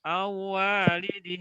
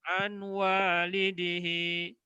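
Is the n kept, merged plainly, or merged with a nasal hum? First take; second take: merged plainly; kept n. First: The n merges into w without nasal hum. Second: A clear n is heard before the w. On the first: "sudah dileburkan tapi tanpa didengungkan itu juga salah" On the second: "salah kalau dibaca an walidihi"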